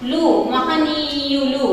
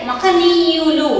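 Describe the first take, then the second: First: Slow, "లు" set apart and leaned on, then మహనీయులు said softly; stress on the ending లు. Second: A very slow, even మహనీయులు with no special stress; teacher models మహనీయులు at dictation pace. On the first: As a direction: isolate "లు" and lean on it before మహనీయులు. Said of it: "ఆ డు తీసేసి లు చేర్చుకున్నాం". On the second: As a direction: read మహనీయులు slowly and evenly for the class. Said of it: "దానికి మన డు ఒక్కడే". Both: Shown as a demonstration.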